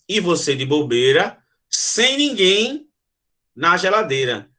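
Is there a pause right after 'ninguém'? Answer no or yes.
yes. It pauses after bobeira and again after ninguém. The person is alone inside the fridge. "você de bobeira, vírgula, sem ninguém, vírgula, na geladeira"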